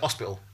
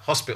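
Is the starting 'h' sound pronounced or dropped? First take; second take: dropped; pronounced. First: The word begins without an h sound. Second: The word begins with an h sound.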